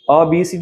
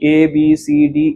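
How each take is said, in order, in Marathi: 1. पहिलं अक्षर छोटं 'uh' असं म्हणतात. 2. पहिलं अक्षर पूर्ण 'ay' असं म्हणतात. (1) "असं नाही म्हणणार" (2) "तर मी ए असं म्हणेल"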